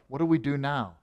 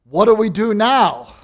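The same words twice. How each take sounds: First: The question sounds sad and despairing. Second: The question sounds eager and excited. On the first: There seems to be no hope left. "mourning, he's gone" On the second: Something joyful has opened a new path. "He's alive. ... Same question, different inflection"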